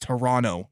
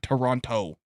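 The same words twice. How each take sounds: First: The second T is dropped. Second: The second T is clearly pronounced. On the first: The speaker is Canadian. The speaker calls it right. "You don't pronounce the T. It's Toronto" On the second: The speaker is not Canadian. The speaker calls it wrong. "not Toronto"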